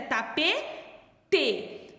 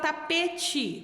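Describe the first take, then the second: First: The word is said carefully, every syllable clear. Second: The word is said in a casual everyday form. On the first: This is the correct form. The speaker calls it right. "o certo é tapete" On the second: This is how people usually say it. The speaker calls it wrong. "a gente fala tapete"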